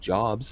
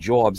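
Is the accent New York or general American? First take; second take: general American; New York. First: It is said in a general American accent. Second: It is said in a New York accent.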